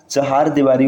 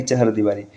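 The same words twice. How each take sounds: First: चहार दीवारी with long "haar"; correct form. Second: चहर दीवारी with short "har"; wrong form. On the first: Teacher giving the correct form, long "haar" in चहार दीवारी. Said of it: "चहार दीवारी होता है". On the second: Teacher citing the rejected form, short "har" in चहर दीवारी. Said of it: "न कि". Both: Shown as a demonstration.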